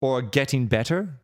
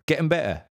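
First: Said in the usual way. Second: Cockney "Getting better", higher, Ts made glottal; Cockney: glottal stops in "Getting better"; Cockney "Getting better", a bit higher; Cockney accent. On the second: Shown as a demonstration. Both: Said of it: "change the T to a glottal".

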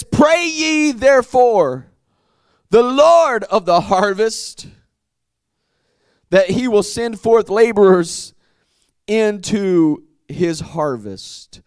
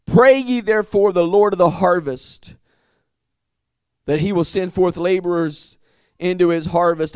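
First: Preaching verse read. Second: Said in the usual way. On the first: Acted. Preacher reading the verse to his congregation, proclaiming. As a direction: proclaim each phrase with weight.

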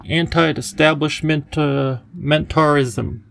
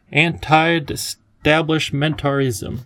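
First: Slow, halting Anti-establishment, uh, mentarism with a stumble before mentarism; fumbled long word. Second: Slow, deliberate Anti-establishmentarism in one smooth run; careful full word. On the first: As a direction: sound out Anti-establishment then trip into mentarism. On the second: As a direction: spell out Anti-establishmentarism syllable by syllable without a break. Professor says the word properly. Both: Acted.

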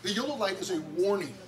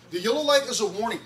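First: Said in the usual way. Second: "The yellow light is a warning." said again louder and faster; emphatic repeat. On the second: Shown as a demonstration. Pastor repeating the lesson to the kids, louder and faster. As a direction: drive the point home.

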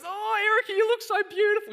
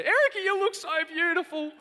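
First: High, loud, gushing praise; gushing friend. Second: High, loud, gushing praise; gushing friend again. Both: Retold or imitated. Ruth gushing over the wife's dress at the wedding. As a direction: gush over her like a delighted old friend. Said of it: "And she goes".

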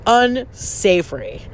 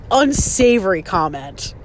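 First: "Unsavory" slowly stretched out; drawn-out emphasis. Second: Said in the usual way. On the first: Real, not acted. Judging the mother's comment, slow emphatic "Unsavory". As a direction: dwell on each part of "Unsavory", slowly.

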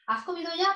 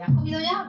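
First: High, louder teasing question from a friend; mock friend's question. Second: High, louder playful friend's question, pushed harder; mock friend's question. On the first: Friend teasing her about being hungry, high playful question. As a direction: toss it off like a caring friend checking in. Friend asking if she ate. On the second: Repeating her friend's hungry check, louder and higher. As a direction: ask it again with more punch, teasing.

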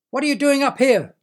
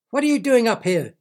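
First: Higher, louder squawking yell; yelling bird. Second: High, loud squawking yell; yelling bird. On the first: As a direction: bird yelling even harder. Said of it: "yelled the bird again". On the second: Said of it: "yelled the bird". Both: Acted.

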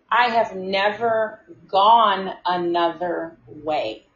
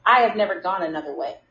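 First: Each word drawn out deliberately; slow emphatic repeat. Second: Said in the usual way. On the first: Retold or imitated. Worker insisting to a client about the route, slow and emphatic. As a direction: spell it out slowly, with pauses between words.

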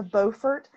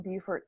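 First: Beaufort said as BOH-furt. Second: Beaufort said as BYOO-furt. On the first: Naming the North Carolina argument, Beaufort as BOH-furt. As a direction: start Beaufort with "bow". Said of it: "it does say bow". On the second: Naming the South Carolina town, Beaufort as BYOO-furt. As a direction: start Beaufort like "beautiful". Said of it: "it's pronounced bew". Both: Shown as a demonstration.

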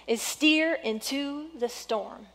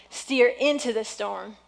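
First: Slow, stressed on steer; stressed key phrase. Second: Said in the usual way. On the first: Shown as a demonstration. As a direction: lean on steer for note-takers. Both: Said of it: "if you're taking notes".

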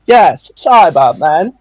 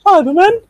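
First: Slow and louder, drawing out "Yes, Cybermen."; a slow, smug Cyberman answer; sassy reply. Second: Much higher, puzzled "Cybermen?" with a rising end; incredulous question. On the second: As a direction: ask it in disbelief, pitch jumping up. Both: Retold or imitated. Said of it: "a bit sassy".

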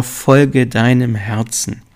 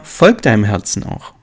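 First: Slow, weighty motto with FOLGE leaned on; drawn-out, deliberate motto. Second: Said in the usual way. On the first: Shown as a demonstration. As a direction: spell out „Folge deinem Herzen.“ slowly, as a creed. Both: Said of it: "ich sag ja immer".

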